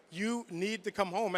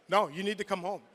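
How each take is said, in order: First: Softer, slow, heavy repeat of "come home"; quiet pleading. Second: Said in the usual way. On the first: Retold or imitated. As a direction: let it drop, quietly insisting. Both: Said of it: "something different in her voice".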